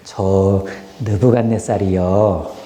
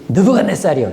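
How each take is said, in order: First: It sounds polite and respectful. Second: It sounds defiant and confrontational.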